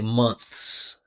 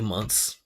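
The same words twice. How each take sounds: First: It is said slowly with the TH pronounced. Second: It is said fast with the TH dropped. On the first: "if you want to pronounce it slow, clearly" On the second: "if you're saying this word fast, just in natural speech, we actually just drop the T H"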